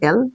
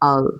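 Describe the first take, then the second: First: The letter name starts with an 'e' vowel. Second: The letter name starts with an 'a' vowel. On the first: This is how we usually say it. The speaker calls it wrong. "সবাই বলি না এল, কিন্তু এটা এল না" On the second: This is the proper way to say it. The speaker calls it right. "এটা আল"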